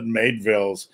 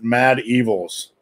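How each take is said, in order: First: The name is said quickly, run together. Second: The name is said slowly and carefully. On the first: The speaker calls it wrong. "I always want to pronounce it" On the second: The speaker calls it right. "I'm going to slow down for once and pronounce it"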